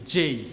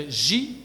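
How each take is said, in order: First: J said the English way, "jay"; J as English "djay"; English letter name. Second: J said the French way, "zhee"; French letter name. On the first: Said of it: "et en anglais". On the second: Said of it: "en français". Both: Shown as a demonstration.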